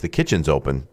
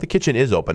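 First: The word 'is' is contracted onto 'kitchen'. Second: The word 'is' is said in full. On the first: The speaker calls it right. "It's the kitchen's open" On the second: The speaker calls it wrong. "It's not the kitchen is open"

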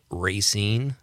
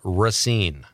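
First: The first vowel is a long A. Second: The first vowel is not a long A. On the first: The speaker calls it wrong. "I hear that a lot. Racine. People from there say that, though" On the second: The speaker calls it right. "Racine does not have a long A. It's pronounced Racine"

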